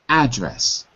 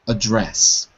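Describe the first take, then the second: First: The stress is on the first syllable. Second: The stress is on the second syllable. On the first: It is used as a noun. "So as a noun" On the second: It is used as a verb. "As a verb, ... Second syllable"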